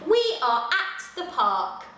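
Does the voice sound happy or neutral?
happy. It is read in a happy, cheerful voice. "Let's say it in a happy voice"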